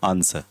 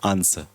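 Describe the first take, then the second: First: The w sound is left out of the word. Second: The same.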